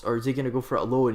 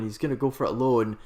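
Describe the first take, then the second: First: "alone" with a questioning rise; asking question. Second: "gonna" stressed, falling to a firm answer; answering statement. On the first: Commentator wondering aloud if the winger goes solo, rising question. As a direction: lift "alone" up as an open question. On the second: Commentator answering his own question as the winger goes solo, falling statement. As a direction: settle the question with a falling "alone". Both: Real, not acted. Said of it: "Now the question is".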